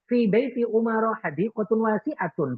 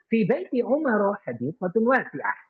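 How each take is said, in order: First: The last word ends with a full 'atun' ending. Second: The last word ends in a short 'ah'. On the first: The speaker calls it wrong. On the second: The speaker calls it right.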